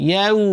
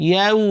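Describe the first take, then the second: No difference in how they are said.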